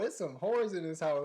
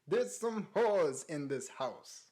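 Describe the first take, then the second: First: It is said in a relaxed, everyday voice. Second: It is said in a grand, stagey voice.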